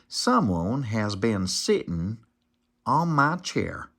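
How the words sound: It is said in a middle-sized voice.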